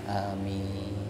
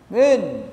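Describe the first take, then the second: First: It is said politely and calmly. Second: It sounds like calling out to someone.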